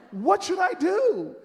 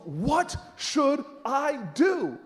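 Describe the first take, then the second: First: High, loud, stretched-out plea; exasperated demand. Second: Slow, word-by-word question; strained patience. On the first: Demanding Miss Jones's answer, loudly exasperated. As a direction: cry it out impatiently. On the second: Asking Miss Jones once more, slow and insistent. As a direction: spell it out with barely held patience. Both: Retold or imitated.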